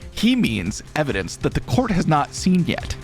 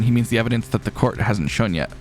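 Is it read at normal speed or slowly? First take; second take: slowly; normal. First: It is read slowly. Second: It is read at normal speed.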